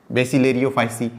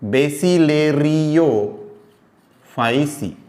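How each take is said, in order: First: Said in the usual way. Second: Very slow, बेसिलेरियोफाइसी stretched syllable by syllable; slow teaching pronunciation; drawn-out syllables. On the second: Shown as a demonstration. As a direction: spell बेसिलेरियोफाइसी out slowly for the class. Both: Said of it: "term said twice".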